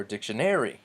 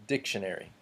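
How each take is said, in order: First: "dictionary" with the stress moved onto NAR; wrong-syllable stress. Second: Said in the usual way. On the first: Shown as a demonstration. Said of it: "emphasis on the wrong syllable". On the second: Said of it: "We don't say".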